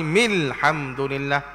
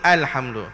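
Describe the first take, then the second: First: The opening 'a' sound is dropped. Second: The opening 'a' sound is pronounced. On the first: The word is joined to the word before. "dia kena buang a tu. Maka jadi mil terus" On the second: The word is read on its own. "Kalau masa nak baca alhamdu saja-saja, ah, bunyi alhamdu"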